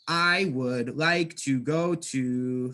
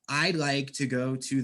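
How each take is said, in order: First: I would is said fully as two words. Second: I would is contracted into one quick syllable. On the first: The speaker calls it wrong. "Sounds robotic, sounds not smooth and natural" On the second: The speaker calls it right. "Now listen with contractions"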